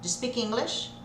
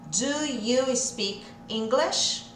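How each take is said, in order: First: Do and you merge into one 'j' sound. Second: Do and you are said as separate words. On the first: The speaker calls it right. "Vamos juntar o do com o you, vai ficar j" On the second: The speaker calls it wrong. "Claro que a gente não vai falar assim"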